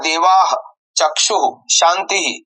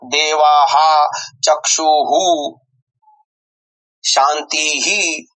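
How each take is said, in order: First: The h sounds are breathy with no echo vowel. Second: An echo vowel follows each h sound. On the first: The speaker calls it right. "ह श्वास कंठापासून उच्चारण करावे" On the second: The speaker calls it wrong. "असा कदापि करू नये"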